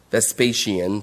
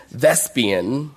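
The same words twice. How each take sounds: First: Vespasian with a long middle, ves-PAY-shee-un; low, soft aside, Vespasian stressed on PAY; alternative pronunciation. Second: Vespian in the short form, VES-pee-un; short pronunciation. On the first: Preacher giving others' version, Vespasian as ves-PAY-shee-un. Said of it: "some people pronounce it". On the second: Preacher naming the Roman general, Vespian as VES-pee-un. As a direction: stress the first syllable of Vespian, VES-pee-un. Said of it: "people pronounce it different ways". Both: Shown as a demonstration.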